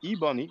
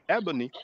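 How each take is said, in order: First: The first vowel sounds like a French E. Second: The first vowel sounds like an American E. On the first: The speaker calls it wrong. "I figured that you, you pronounce it ebony" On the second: The speaker calls it right. "but actually you pronounce it ebony"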